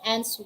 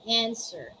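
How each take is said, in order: First: A W sound is pronounced after the first vowel. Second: No W sound is pronounced in the word. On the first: The speaker calls it wrong. "we don't say answer" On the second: The speaker calls it right. "we say answer"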